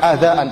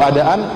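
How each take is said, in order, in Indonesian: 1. Konsonan tengahnya adalah bunyi 'dh'. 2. Konsonan tengahnya adalah bunyi 'd' biasa. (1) "pakai dzal, bukan huruf dal" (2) "Kalau adaan, ada bukan qadha"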